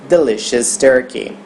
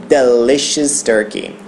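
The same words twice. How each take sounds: No difference in how they are said.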